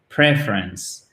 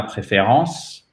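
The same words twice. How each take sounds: First: "preference" drawn out slowly, first syllable stressed; slow English "preference", PREF leading, falling away. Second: "préférence" said the French way, as the word not to say; French-accented wrong version. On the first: Teacher correcting French speakers, stress on the first syllable of "preference". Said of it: "vous mettez bien l'accent tonique sur la première syllabe". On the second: Teacher showing learners the wrong French reading, French-style pronunciation. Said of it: "Ce n'est pas préférence". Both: Shown as a demonstration.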